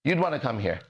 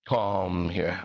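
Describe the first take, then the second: First: Said in the usual way. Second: "Come here" said much lower and drawn out. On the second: Shown as a demonstration. Teaching the word, low drawn-out "Come here".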